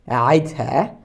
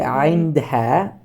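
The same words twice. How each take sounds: First: The word is said in a reduced, shortened form. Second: The word is said with all its sounds. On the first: "I simplified it to better pronunciation" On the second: "I didn't say"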